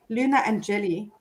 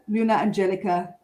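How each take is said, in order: First: The second name ends without a 'ka' syllable. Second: The second name ends with a 'ka' syllable. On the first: The speaker calls it right. "There we go" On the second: The speaker calls it wrong. "I think I've been saying it wrong"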